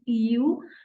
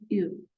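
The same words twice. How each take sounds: First: The vowel is drawn out long. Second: The vowel is clipped very short. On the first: The speaker calls it wrong. "It's not a dragged on, it's not ew" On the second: The speaker calls it right. "it's just ew"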